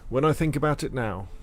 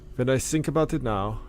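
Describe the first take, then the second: First: It is read in a plain, natural voice. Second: It is read in a put-on Russian accent.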